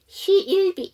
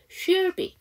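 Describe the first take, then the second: First: The vowel before the l is pronounced. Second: The vowel before the l is dropped. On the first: The speaker calls it wrong. "이렇게 하시는 것보다 훨씬 쉬워요" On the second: The speaker calls it right. "모음을 묵음처럼 아예 빼주세요"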